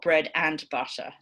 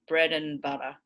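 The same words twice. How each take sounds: First: The word 'and' is full and stressed. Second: The word 'and' is reduced to a weak schwa. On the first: The speaker calls it wrong. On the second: The speaker calls it right. "you're going to lose that primary stress"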